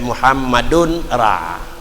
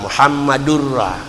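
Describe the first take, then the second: First: The n sound is heard before the r. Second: The n sound merges into the following r. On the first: "tapi di juga tanwin" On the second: "bacaan bil idgham bagi tanwin dalam ra"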